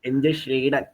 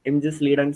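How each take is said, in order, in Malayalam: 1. ഈ കുടുംബപ്പേര് 'sh' ശബ്ദത്തിലാണ് തുടങ്ങുന്നത്. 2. ഈ കുടുംബപ്പേര് 's' ശബ്ദത്തിലാണ് തുടങ്ങുന്നത്. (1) "ഷ്ലീഡനെക്കാട്ട് നല്ലതല്ല സ്ലീഡൻ" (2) "സായ് ആക്കി ഒന്ന് പ്രൊനൗൺസ് ചെയ്തേ"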